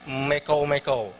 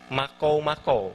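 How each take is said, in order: First: The first vowel is a mid e sound. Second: The first vowel is an open a sound. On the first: This is the Sesayap dialect form. "Kalau di Sesayap itu mekou-mekou" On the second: This is the widely known form. "bahasa yang halayak ramai kenal adalah makou-makou"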